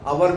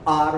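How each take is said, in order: First: The word is said with two syllables. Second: The word is said with one syllable. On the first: The speaker calls it wrong. "अवर भी नहीं कहता कहा जाता" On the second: The speaker calls it right. "वास्तव में इसका pronunciation जो होता है आर वर्क"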